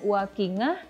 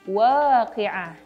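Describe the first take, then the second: First: The middle consonant is a nasal ng sound. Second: The middle consonant is made in the throat. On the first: The speaker calls it wrong. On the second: The speaker calls it right. "huruf ain ada di tenggorokan bagian tengah"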